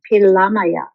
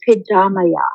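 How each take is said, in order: First: It is said the Lakota way, with an L. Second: It is said the Dakota way, with a D.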